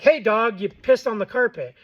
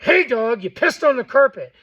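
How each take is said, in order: First: Said in the usual way. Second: Louder, firm scolding of the dog. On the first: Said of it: "you're not gonna be like". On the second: Shown as a demonstration. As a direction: tell the dog off with real force. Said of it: "You're gonna be like".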